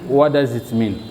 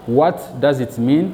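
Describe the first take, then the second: First: The T at the end of 'what' is dropped. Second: The T at the end of 'what' is pronounced. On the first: "je ne prononce pas les T de what" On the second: "Je ne dis pas"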